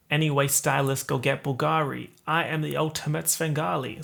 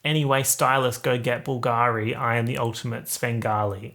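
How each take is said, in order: First: American accent. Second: Australian accent. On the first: YouTuber demonstrating a favourite lyric, American accent. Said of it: "doing an American accent". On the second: YouTuber showing the lyric sounds worse, Australian accent. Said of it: "in an Australian accent". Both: Shown as a demonstration.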